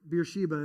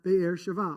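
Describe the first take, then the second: First: It is said like beer-shee-ba. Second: It is said like beh-er sheh-va.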